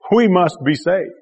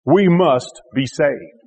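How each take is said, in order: First: Said in the usual way. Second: Slow, weighty stress on each word of We must be saved; emphasized slowly. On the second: Shown as a demonstration. Preacher drawing out the key words to the congregation, slow and emphatic. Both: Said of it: "I want to emphasize just those last four words".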